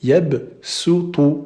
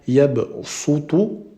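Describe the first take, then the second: First: The s is light and plain, like sin. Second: The s is heavy and emphatic, like sad. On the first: The speaker calls it right. "mais plutôt" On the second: The speaker calls it wrong. "on ne va pas dire de manière grave"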